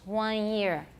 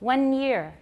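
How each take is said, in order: First: The vowel is nasalized with no n sound. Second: The n is fully pronounced before 'year'.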